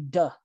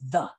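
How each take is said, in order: First: The word starts with a d sound. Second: The word starts with a th sound. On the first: The speaker calls it wrong. "A lot of times people say duh" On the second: The speaker calls it right. "it's really important to say the"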